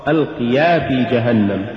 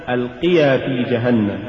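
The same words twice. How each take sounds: The two takes are said the same way.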